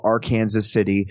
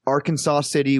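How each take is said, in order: First: Arkansas City said ar-KAN-zus City; Kansas pronunciation. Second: Said in the usual way. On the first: Shown as a demonstration. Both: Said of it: "we call Arkansas City".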